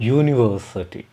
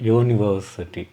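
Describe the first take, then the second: No difference in how they are said.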